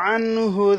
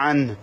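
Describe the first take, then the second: First: The word ends with an audible u vowel. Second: The word ends without the final vowel. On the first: The reading continues without a stop. "যদি এখানে আমি না থাকি না থামি ... তখন আনহু এই পেশটা সহ উচ্চারণ করতে হবে" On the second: The reading stops at this word. "আর যদি থামি তাহলে আন, পেশটা সাকিন হয়ে যাবে"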